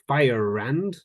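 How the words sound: Fire is said with a clear R sound. "So for an American"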